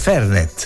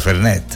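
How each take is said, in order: First: The stress is on the first syllable. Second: The stress is on the second syllable. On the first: This is how it is said in Tuscany. "accento sulla prima E" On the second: This is how the advertisement said it. "la pubblicità però diceva"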